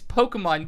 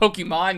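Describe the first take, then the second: First: The syllable 'mon' carries no extra emphasis. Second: The syllable 'mon' carries extra emphasis. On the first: The speaker calls it right. "It's Pokemon Go" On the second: The speaker calls it wrong. "not Pokemon"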